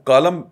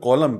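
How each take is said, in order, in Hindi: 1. पहला स्वर सादा 'ah' जैसा है। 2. पहला स्वर गोल होंठों वाला 'aw' जैसा है। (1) "वो लिखी जाने वाली ज़बान है" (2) "बोला जाएगा कॉलम क्योंकि वो अंग्रेज़ी का"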